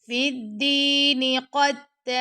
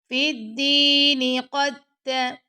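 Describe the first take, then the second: Both takes have the same delivery.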